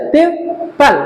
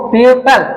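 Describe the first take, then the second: First: people broken in two, পিউ, pause, পাল; split into syllables. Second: Said in the usual way. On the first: Shown as a demonstration. Teacher showing two syllables, people split as পিউ - পাল. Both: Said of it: "দুটো syllable আছে".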